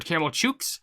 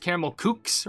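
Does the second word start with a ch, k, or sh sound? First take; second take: ch; k. First: The second word starts with a ch sound. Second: The second word starts with a k sound. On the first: "I thought it was" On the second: "I thought it was"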